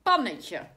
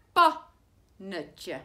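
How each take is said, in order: First: Said in the usual way. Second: "Pannetje" stretched out as pan-ne-tje, each syllable clear; teacher slowly sounding out "Pannetje" in pan-ne-tje. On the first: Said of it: "Het eerste woordje is". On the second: Shown as a demonstration. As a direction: spell out "Pannetje" slowly, syllable by syllable, for young pupils. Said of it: "dat is een korte klank".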